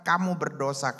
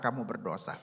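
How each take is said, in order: First: Said in the usual way. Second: Lower, softer echo of the accusation; fading ghost echo. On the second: A narrator's reading. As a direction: let it fade like a spirit's echo. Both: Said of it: "terus dihantui oleh roh-roh".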